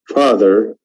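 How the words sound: The r sound after the vowel is clearly pronounced. "In American accent, we have very clear re"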